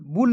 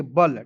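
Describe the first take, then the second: First: बुल with a rounded oo; wrong syllable. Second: बल with an unrounded "uh"; correct syllable. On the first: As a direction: say बुल like English bull. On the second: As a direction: say बल as "bul" rhyming with gull. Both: Shown as a demonstration. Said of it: "बुल नहीं पढ़ेंगे".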